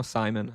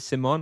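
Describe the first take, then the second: First: Simon said "SIGH-mun", stress on the first syllable. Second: Simon said "sih-MON", stress on the second syllable; Simon as see-MON. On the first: Streamer checking a viewer's name, Simon pronounced SIGH-mun. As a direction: say Simon with a long i and a reduced ending. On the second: Streamer checking a viewer's name, Simon pronounced sih-MON. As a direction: say Simon with a short i and a full MON ending. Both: Shown as a demonstration. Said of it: "Is it Simon or Simon?".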